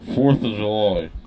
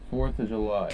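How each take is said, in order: First: The phrase is said loudly and clearly. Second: The phrase is said quietly, barely audible. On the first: The speaker calls it right. "that's much better" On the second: The speaker calls it wrong. "No one can hear that"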